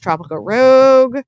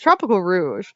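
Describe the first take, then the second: First: The last word has a hard g like rogue. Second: The last word ends in a soft zh sound. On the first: The speaker calls it wrong. "I keep pronouncing it wrong" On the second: The speaker calls it right. "It's Tropical Rouge"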